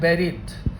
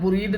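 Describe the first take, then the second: First: The first vowel sounds like the e in bed. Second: The first vowel sounds like the u in put. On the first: The speaker calls it right. "सही उच्चारण छात्र होता है बेरिड" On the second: The speaker calls it wrong. "बुरीड नहीं होता है"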